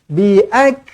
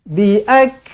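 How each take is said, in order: No difference in how they are said.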